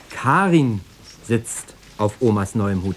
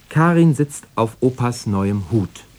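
First: The stress falls on the word Karin. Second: The stress falls on the word Hut. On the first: It is Karin, not someone else, sitting there. "Ja, natürlich, Karin" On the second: It is the hat, not a chair, being sat on. "Also nicht auf dem Stuhl, sondern auf Opas neuem Hut"

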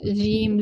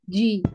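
First: The j is soft and open, like zh. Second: The j is firm and closed, like dj. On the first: The speaker calls it wrong. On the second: The speaker calls it right.

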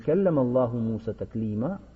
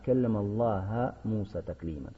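First: The word Allah ends with an u vowel. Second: The word Allah ends with an a vowel. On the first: Allah spoke to Musa. The speaker calls it right. "говорить нужно не" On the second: Musa spoke to Allah. The speaker calls it wrong. "заменяют «дамму» на «фатху»"

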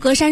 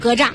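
First: The second syllable does not sound like zha. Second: The second syllable sounds like zha. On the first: This is the habitual reading. The speaker calls it wrong. "都是读格栅是习惯性的" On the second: This reading fits the meaning. The speaker calls it right. "从意思上来看，它应该读格栅"

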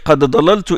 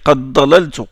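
First: The d of qad is pronounced separately. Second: The d of qad merges into the next consonant.

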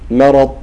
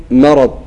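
No difference in how they are said.

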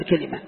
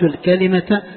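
First: The word ends with an h sound. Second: The word ends with a t sound. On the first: The speaker stops on the word. "إن وقفنا نقول الكلمة" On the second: The word runs on into the next word. "لكن عند وصلها بما بعدها ننطقها إيش؟ تاء"

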